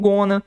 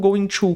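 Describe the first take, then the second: First: The words are blended into one short word. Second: Both words are said fully and separately.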